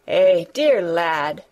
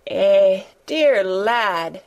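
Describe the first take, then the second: First: Low, slow, tender murmur. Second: Trembling, moved outburst; tremulous. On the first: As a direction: soften it, almost to yourself. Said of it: "as if she had not known". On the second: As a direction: voice shaking with sudden feeling. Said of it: "she broke out tremulously". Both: A narrator's reading.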